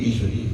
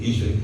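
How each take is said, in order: The two takes are said the same way.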